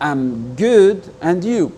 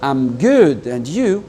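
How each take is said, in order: First: I am is contracted into one syllable. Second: I am is contracted into one syllable.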